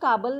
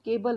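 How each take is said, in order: First: The first vowel sounds like 'ah'. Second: The first vowel sounds like 'ay'. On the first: The speaker calls it wrong. "केबलला आपण काबल नाही म्हणत ना" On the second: The speaker calls it right. "केबल म्हणतो"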